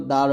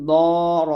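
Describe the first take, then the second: First: দার with light open D; thin dal. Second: দর slow, with heavy rounded D; thick dad. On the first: Teacher spelling for learners, দার with thin D. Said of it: "দালটা হবে পাতলা". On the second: Teacher spelling for learners, দর with thick D. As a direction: fatten and stretch দর. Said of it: "দদ মোটা হবে". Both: Shown as a demonstration.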